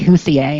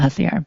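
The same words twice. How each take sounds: First: The name is pronounced in a French style. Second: The name is pronounced in a plain English style. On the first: The speaker calls it wrong. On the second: The speaker calls it right.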